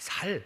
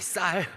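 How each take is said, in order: First: The first consonant is a plain, lax s. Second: The first consonant is a tense, strong s. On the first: The speaker cannot produce the intended sound. The speaker calls it wrong. "분명히 자기들은 다르게 말했다고" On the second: This is the form being asked for. The speaker calls it right. "쌀 해봐"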